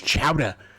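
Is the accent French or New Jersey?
New Jersey. It is said with a New Jersey accent.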